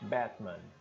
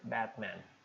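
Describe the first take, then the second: First: British accent, with a softened second syllable. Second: It is said in an American accent. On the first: "O britânico suavizaria a segunda sílaba, faria mais glotal só a primeira" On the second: "O americano diria Batman"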